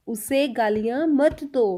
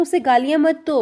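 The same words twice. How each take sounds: First: Slow, word-by-word teaching pace; slow repeat. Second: Said in the usual way. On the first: Shown as a demonstration. Teacher repeating the example sentence for learners, slowly. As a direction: space out each word for learners.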